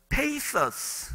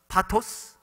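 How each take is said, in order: First: Pathos is said the way the English dictionary gives. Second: Pathos is said the Korean-style way, like pa-to-seu. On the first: It follows the dictionary pronunciation. The speaker calls it right. "그 발음 기호를 찾아보니까 이런 pathos" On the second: Listeners could not understand it. The speaker calls it wrong. "못 알아듣더라고요"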